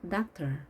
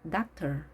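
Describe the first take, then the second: No difference in how they are said.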